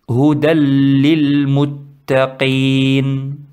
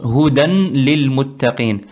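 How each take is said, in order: First: The n merges into the following l. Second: The n is pronounced clearly before lil. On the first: The speaker calls it right. "le prononcent correctement" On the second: The speaker calls it wrong. "ils le prononcent Hudan lil muttaqin"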